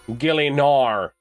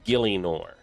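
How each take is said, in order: First: It is said in an Australian accent. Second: It is said in the speaker's normal accent.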